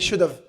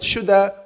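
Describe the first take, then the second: First: Both words are said fully and separately. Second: The words are reduced and run together. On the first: "if you want to make it easier, you can say should have" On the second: "it can be pronounced that shoulda"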